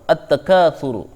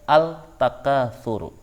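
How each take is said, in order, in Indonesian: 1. Bunyi l menyatu dengan konsonan ganda yang mengikutinya. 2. Bunyi l terdengar jelas diucapkan sebelum konsonan itu. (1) "Cara bacanya" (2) "Tidak boleh membaca"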